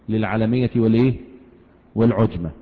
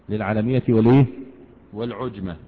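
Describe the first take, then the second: The two takes are said the same way.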